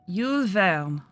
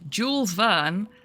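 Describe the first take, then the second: First: The name is said with a French-like pronunciation. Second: The name is said with an English-like pronunciation. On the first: The speaker calls it right. "Which the captions don't pick up at all" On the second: The speaker calls it wrong. "So if I say it wrong, the captions pick it up correctly"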